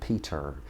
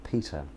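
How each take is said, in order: First: An R sound is heard at the end. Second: No R sound is heard at the end. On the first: The speaker calls it wrong. "she was pronouncing it in every word" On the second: The speaker calls it right. "Peter more like Peter"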